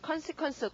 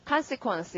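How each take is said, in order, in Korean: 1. 첫 음절은 철자대로 그냥 읽습니다. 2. 첫 음절은 원래 모음대로 강세를 받습니다. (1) "con 이렇게 읽었었죠?" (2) "앞에 강세가 있기 때문에 이제 실제로는 발음이 어떻다?"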